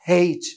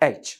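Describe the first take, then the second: First: The word begins with an h sound. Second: The word begins with a vowel sound. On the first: The speaker calls it wrong. "কেউ কেউ style দিয়ে অতিমাত্রায় ঢং করে বলে হেইচ" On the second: The speaker calls it right. "এটার actual উচ্চারণ হবে এইচ"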